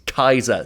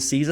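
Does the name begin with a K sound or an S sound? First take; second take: K sound; S sound. First: The name begins with a K sound. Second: The name begins with an S sound. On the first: The speaker calls it right. "That's how the Romans pronounced it" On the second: The speaker calls it wrong. "It's not Caesar as in Caesar salad"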